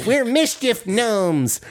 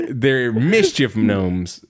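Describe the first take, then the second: First: High, slow, impish gnome voice; mischief gnome voice. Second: Said in the usual way. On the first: Retold or imitated. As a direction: announce it like a proud little gnome.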